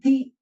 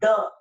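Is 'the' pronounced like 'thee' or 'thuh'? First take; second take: thee; thuh. First: The vowel is a long 'ee' sound. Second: The vowel is a short, weak 'uh' sound. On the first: The next word starts with a vowel sound. "if any word starts with vowel sound, automatically the" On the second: The next word starts with a consonant sound. "Otherwise, it is just uh, spoken as the"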